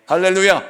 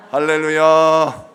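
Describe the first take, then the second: First: Said in the usual way. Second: 할렐루야 drawn out slowly and sung; sung hallelujah. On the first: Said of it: "call to congregation". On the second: Real, not acted. Pastor leading the congregation in song, sung slowly. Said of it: "sung call".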